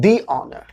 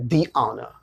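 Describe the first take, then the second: First: The said as thee before honor; "thee" repeated. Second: The said as thee before honor; "thee" before silent h. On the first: Teacher repeating the silent-h example. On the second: Teacher showing students the silent-h rule. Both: Shown as a demonstration. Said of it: "ये अ sound आ रहा है".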